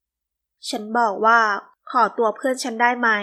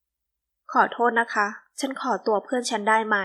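First: Slow, firmer, a bit louder repeat; rising annoyance. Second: Slow, sweetly polite ask; sweet polite request. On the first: Woman repeats her request to the man, annoyed. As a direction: press each word, losing patience. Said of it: "อารมณ์เริ่มเดือดดาล ... ด้วยความไม่พอใจ". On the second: Woman politely asks stranger for her friend, sweetly. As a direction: ask nicely, unhurried and sweet. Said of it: "เจ้าของเสียงหวาน". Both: A narrator's reading.

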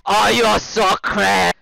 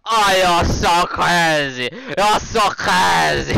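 First: High, loud, drawn-out mock whine; mocking imitation. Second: High, loud, slow mock whine; mocking imitation. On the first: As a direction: parrot his words in a silly voice. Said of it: "You say I'm crazy". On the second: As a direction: mimic him in a silly squeaky voice. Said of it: "He's like".

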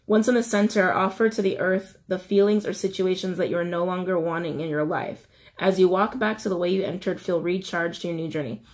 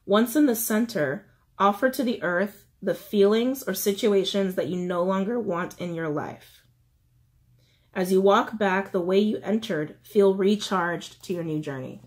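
First: Said in the usual way. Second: Measured, with pauses between steps; slow reading. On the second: Shown as a demonstration. Reiterating the steps for letting go, slow reading. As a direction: read it out unhurriedly, phrase by phrase. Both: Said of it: "I'll try to read it slowly".

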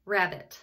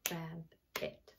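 First: Said in the usual way. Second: "Rabbit" split softly as rab, pause, bit; "Rabbit" low and soft, syllable by syllable; clapped-out syllables. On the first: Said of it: "Clap the word rabbit". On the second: Shown as a demonstration. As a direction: break "Rabbit" into two hushed beats. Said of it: "we're gonna clap them out".

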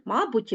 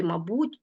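First: Мабуть said as MA-but; мабуть with the opening syllable strong; stress on first syllable. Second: Мабуть said as ma-BUT; мабуть with the ending strong; stress on last syllable. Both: Shown as a demonstration. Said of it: "слова з подвійним наголошенням".

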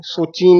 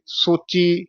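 First: ਸੋਚੀ with a nasal final ee; wrongly nasalise the end of ਸੋਚੀ; added bindi. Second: ਸੋਚੀ with a clean oral ee; no bindi. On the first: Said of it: "ਨਹੀਂ ਕਹਿਣਾ।". (ਸੋਚੀ ਬਿੰਦੀ ਨਾਲ) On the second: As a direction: end ਸੋਚੀ without nasal sound. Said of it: "ਬਿੰਦੀ ਨਹੀਂ ਲਾਉਣੀ". (ਸੋਚੀ ਬਿੰਦੀ ਬਿਨਾਂ) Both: Shown as a demonstration.

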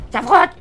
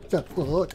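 First: High, loud cry of alarm; sudden real shout; alarmed yell. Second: Said in the usual way. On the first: Real, not acted. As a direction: yelp as the truck scrapes. Truck scrapes, he cries out.

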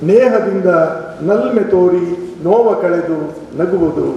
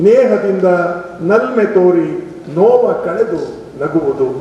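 Both takes have the same delivery.

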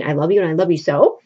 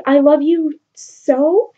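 First: Fast, dismissive parroting of his line; mocking imitation. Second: Slow, rising swoon; lovestruck plea. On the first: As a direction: rattle off his words to mock him. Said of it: "You just keep saying". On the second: Retold or imitated. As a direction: sigh it out like a smitten boy. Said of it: "he's like".

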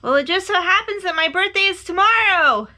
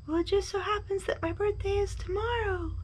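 First: High, loud excited announcement; eager shouting bear; calling out. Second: High, soft echoed reply; small distant voice, high-pitched. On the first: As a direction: call it far across the mountains. Bear calls across to the moon. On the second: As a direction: repeat it like a faraway echo. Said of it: "his own voice echoed". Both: A narrator's reading.

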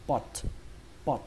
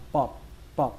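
First: "pot" ending in a released puff of T; "pot" with aspirated T. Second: "pot" cut off, no puff on the T; "pot" with unreleased T. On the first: Teacher models the more accurate reading, "pot" with a released, airy T. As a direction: shoot air out on the final T of "pot". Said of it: "các bạn hãy bắn hơi âm T". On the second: Teacher models the easier reading, "pot" with no air on the T. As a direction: stop the final T of "pot" without releasing air. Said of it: "không muốn bắn hơi âm T". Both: Shown as a demonstration.

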